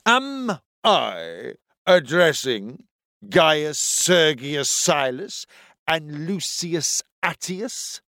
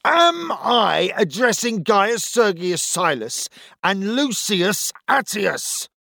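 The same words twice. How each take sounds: First: Slow, pompous officer; deep authoritative voice. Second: Slow, high, angry roar. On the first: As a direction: lay on the authority, slowly. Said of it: "In a voice as deep and full of authority". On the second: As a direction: bellow it out, slowly. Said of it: "roared the centurion". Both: A narrator's reading.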